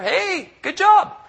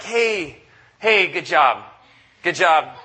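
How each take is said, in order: First: Much higher, slow mock-chirpy good job; a coach who does not care, sarcastically chirpy; sarcastic empty praise. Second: A coach brushing off a blowout loss, mock cheery. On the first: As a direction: drag out a fake bright compliment. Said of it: "give us a big smile and say". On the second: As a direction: play the coach who hands out hollow compliments. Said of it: "when you come off the field is like".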